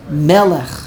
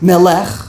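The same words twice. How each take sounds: First: The stress is on the first syllable. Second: The stress is on the last syllable. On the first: The speaker calls it right. "the emphasis is on the first, like melech" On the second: The speaker calls it wrong. "No one says melech. It sounds funny"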